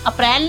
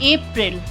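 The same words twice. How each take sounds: First: It is pronounced with Hindi sounds. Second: It is pronounced with English sounds. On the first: The speaker calls it wrong. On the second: The speaker calls it right.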